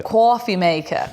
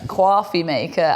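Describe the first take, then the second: First: "Coffee maker" drawn out slowly, Brooklyn "kwawfee"; Brooklyn accent. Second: Said in the usual way. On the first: Pretend. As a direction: say "Coffee maker" like a New Yorker, slow and drawn. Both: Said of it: "put on your Brooklyn accent and say coffee maker".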